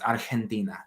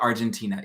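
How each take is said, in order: First: The word is said with a Spanish pronunciation. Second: The word is said with an American pronunciation. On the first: The speaker calls it right. "it's Argentina" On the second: The speaker calls it wrong. "Americans pronounce Argentina incorrectly. It's not Argentina"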